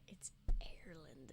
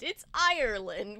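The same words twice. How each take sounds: First: Hushed whisper of the name. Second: "Ireland" said the American way, slow with a rising end; American pronunciation. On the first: Friend whispering how Ireland is said, hushed whisper. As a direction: breathe the word Ireland. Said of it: "It's Ireland whisper". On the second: Friend showing the American "Ireland", slow. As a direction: give "Ireland" an American r, drawn out. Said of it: "in the American English and the accent". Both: Shown as a demonstration.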